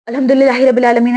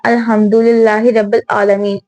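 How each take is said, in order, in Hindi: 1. इसे जल्दी-जल्दी और हड़बड़ी में पढ़ा जाता है। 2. इसे नरमी से और धीरे-धीरे पढ़ा जाता है। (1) "लोग बहुत ज़्यादा तेज़-तेज़ नमाज़ पढ़ते हैं। ऐसा बिल्कुल नहीं है" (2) "हमें हल्के-हल्के पढ़ना चाहिए"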